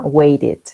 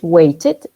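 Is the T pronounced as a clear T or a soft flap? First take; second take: soft flap; clear T. First: The T is softened, American style. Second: The T is pronounced clearly, British style.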